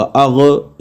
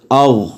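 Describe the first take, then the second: First: अग with a bouncing qalqala echo after the ghain; the wrong way: let अग bounce at the end; अग with an extra echoing release, shown as a mistake. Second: अग with a full ghain that stops clean, no bounce; अग heavy and clipped short, no qalqala; heavy ghain, no echo. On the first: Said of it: "इस तरह नहीं करना". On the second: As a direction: cut अग off right at the ghain. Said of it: "पुर पढ़ा जाएगा लेकिन यहाँ पे कलकला नहीं होगा". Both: Shown as a demonstration.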